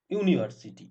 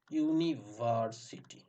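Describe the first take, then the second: First: Said in the usual way. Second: "university" very slowly, broken into syllables. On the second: Shown as a demonstration. Teacher showing how it is pronounced, slow and syllable by syllable. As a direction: spell out the sounds of "university" unhurriedly. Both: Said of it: "এরকম উচ্চারণ হচ্ছে".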